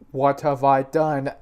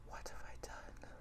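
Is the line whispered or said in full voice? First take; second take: full voice; whispered. First: It is said in a full, normal voice. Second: It is said in a whisper.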